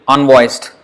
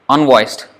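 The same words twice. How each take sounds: The two takes are said the same way.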